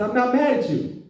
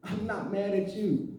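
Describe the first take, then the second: First: Said in the usual way. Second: Softer and slower denial; hushed, measured reassurance; restrained insistence. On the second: Retold or imitated. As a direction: repeat it quietly, drawing it out. Retold denial, repeated slowly and quietly.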